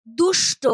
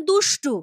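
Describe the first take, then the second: First: Said in the usual way. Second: দুষ্টু said with an added final u; দুষ্টু, not দুষ্ট; altered pronunciation. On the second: Shown as a demonstration. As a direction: end দুষ্টু on a clear u sound. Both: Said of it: "অনেকে বলেন দুষ্টু".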